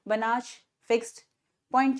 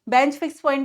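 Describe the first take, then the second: First: The name is said in two syllables, "Banach". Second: The name is squeezed into one syllable, "bench". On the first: The speaker calls it right. "But इसे बनाश fixed point theorem बोला जाता है" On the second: The speaker calls it wrong. "कुछ कुछ बच्चे इसे बेंच fix point भी बोलते हैं, बहुत जल्दी जल्दी पढ़ने के चक्कर में"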